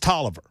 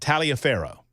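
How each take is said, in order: First: It is said short, ending in 'ver' without o. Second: It is said as spelled, ending in an o. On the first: This is how the locals actually say it. The speaker calls it right. "Tolliver with a V and no O at the end" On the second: This is how the spelling suggests it sounds. The speaker calls it wrong. "Any normal human being would pronounce that Taliaferro"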